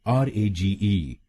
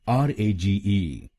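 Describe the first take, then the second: The two takes are said the same way.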